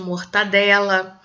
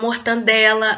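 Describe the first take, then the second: First: No n sound comes before the d. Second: An extra n sound comes before the d. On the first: The speaker calls it right. "ao invés de" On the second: The speaker calls it wrong. "Muitas vezes as pessoas pronunciam as palavras incorretamente"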